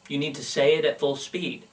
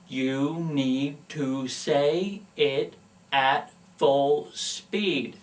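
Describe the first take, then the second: First: It is said quickly at natural speed. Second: It is said slowly, enunciating every word.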